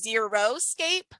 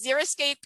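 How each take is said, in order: First: The first part sounds like the word zero. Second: The first part sounds like zeri, not zero. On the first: The speaker calls it wrong. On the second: The speaker calls it right.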